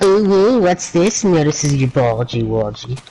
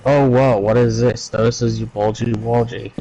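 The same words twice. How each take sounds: First: Excited owo voice. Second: Flat, deadpan reading; monotone. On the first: Acted. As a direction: play it like an excited furry. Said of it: "Owo is like". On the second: Retold or imitated. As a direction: say it with zero emotion. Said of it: "In a monotone voice".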